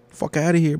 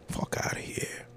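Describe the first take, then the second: First: Higher and louder dismissal; indignant. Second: Breathless whispered dismissal. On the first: Dismissing the filmmaker out loud, indignant. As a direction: brush it off out loud. Repeated, then whispered. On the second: Repeating the dismissal to himself, whispered. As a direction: drop to a whisper. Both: Real, not acted.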